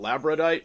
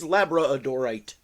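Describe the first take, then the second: First: The word has three syllables, without the middle 'dor'. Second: The word has four syllables, including the middle 'dor'. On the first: The speaker calls it wrong. "Some people call it" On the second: The speaker calls it right. "I think the correct pronunciation"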